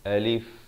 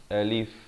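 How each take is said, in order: Both takes have the same delivery.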